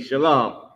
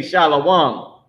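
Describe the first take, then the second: First: Shalom in two syllables, "shuh-LOM"; correct pronunciation. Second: Shalom as three syllables, "SHAH-lo-wahn"; mistaken pronunciation. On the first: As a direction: say Shalom with no "wa" sound. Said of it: "which is really Shalom". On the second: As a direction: add a "wa" sound inside Shalom. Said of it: "people don't know how to say it". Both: Shown as a demonstration.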